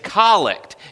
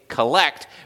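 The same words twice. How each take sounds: First: The stress falls on the first syllable. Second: The stress falls on the second syllable. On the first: It is the noun naming a short prayer form. The speaker calls it right. "but it's collect" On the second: It is the verb meaning to gather. The speaker calls it wrong. "I know it looks like you would say collect"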